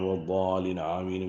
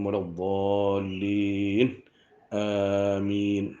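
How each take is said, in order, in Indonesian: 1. Kedua kata tersambung tanpa jeda. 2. Ada jeda yang jelas memisahkan kedua kata. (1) "jangan waladdallin amin" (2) "Sendirian sama"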